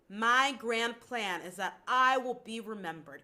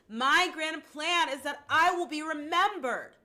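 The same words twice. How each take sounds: First: It is said in a normal speaking voice. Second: It is called out loudly, as if to someone.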